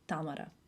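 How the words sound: The name has the speaker's native-language pronunciation. "in my language pronounced Tamara"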